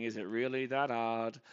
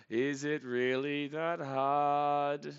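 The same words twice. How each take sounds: First: Said in the usual way. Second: Very slow, every word stretched out; exasperated drawl. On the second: Real, not acted. Fan pleading with the pitcher, exasperated drawl. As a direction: drag out the question in exasperation.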